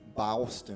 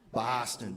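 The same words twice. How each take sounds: First: It is said in an Alabama accent. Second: It is said in a Boston accent.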